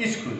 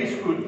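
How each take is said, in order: First: স্কুল said as "iskul", with an i before the s; added initial vowel. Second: Said in the usual way. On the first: Shown as a demonstration. Teacher showing students the easier spoken form, স্কুল with a leading i. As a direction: put a short i in front of স্কুল. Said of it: "উচ্চারণ করি". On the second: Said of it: "লেখি স্কুল".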